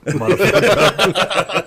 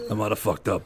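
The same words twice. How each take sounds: First: Higher, louder, slow and laughing "I might have fucked up"; dad on the phone, half-laughing in mock panic; panicked confession. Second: Said in the usual way. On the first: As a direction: drag it out like a guilty old man in a panic. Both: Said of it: "I get this panic phone call".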